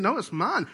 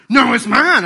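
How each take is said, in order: First: Put-on mild higher toddler it's mine; lightly voiced toddler; toddler possessive. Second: Put-on loud, high toddler it's mine, all worked up; mock toddler tantrum shout. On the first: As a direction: claim it, a touch whiny. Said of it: "just trying to mess with me". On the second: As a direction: screech it like a furious toddler. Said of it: "they get all worked up".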